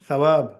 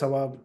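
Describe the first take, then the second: First: The word begins with a soft th sound. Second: The word begins with a plain s sound. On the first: The speaker calls it right. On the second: The speaker calls it wrong.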